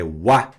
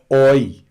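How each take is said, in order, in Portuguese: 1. Ela é pronunciada como 'wa'. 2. Ela é pronunciada como 'oy'. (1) "não existe mais oi, é wa" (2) "nunca oi"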